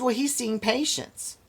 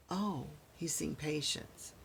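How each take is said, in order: First: High, breezy nurse brushing him off; nurse's dismissive voice. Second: Flat, slow, much softer mock repeat; sarcastic echo. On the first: Retold or imitated. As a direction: toss it off like an unbothered nurse. Quoting the nurse. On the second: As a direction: echo her excuse with dry sarcasm. Mocking the nurse's excuse.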